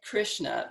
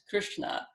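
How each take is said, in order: First: The 'sh' is made with the tongue flat. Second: The 'sh' is made with the tongue curled back. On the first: The speaker calls it wrong. "it ends up sounding like" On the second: The speaker calls it right.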